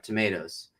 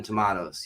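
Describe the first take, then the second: First: Tomatoes said to-MAY-toes; AY in the middle of tomatoes; American pronunciation. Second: Tomatoes said to-MAH-toes; AH in the middle of tomatoes; alternate pronunciation. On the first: Host mixes both ways, tomatoes as to-MAY-toes. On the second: Host mixes both ways, tomatoes as to-MAH-toes. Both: Shown as a demonstration. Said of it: "it's like saying tomato and tomato".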